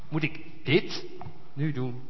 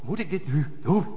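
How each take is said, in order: First: The stress falls on the word dit. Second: The stress falls on the word doen.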